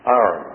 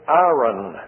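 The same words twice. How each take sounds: First: "Iron" run together as AH-rn, low and short; low, offhand "Iron", sounding like "arn"; habitual mispronunciation. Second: "iron" said carefully, drawn out as a speech teacher's example; careful, lengthened "iron", first vowel a full EYE; corrected pronunciation. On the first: Shown as a demonstration. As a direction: say "Iron" with the first vowel flattened to AH. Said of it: "is what I say". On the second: Retold or imitated. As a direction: model the taught pronunciation of "iron", clearly sounded as EYE-urn. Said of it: "You should pronounce it iron".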